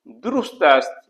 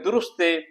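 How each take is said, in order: First: The word 'ast' is said in full, separately. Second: 'Ast' shrinks to a short 'e' ending. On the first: This is the written form. "यहाँ देखिए सीन ते है" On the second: This is everyday spoken usage. "जब हम इसे फ्लो में बोलेंगे"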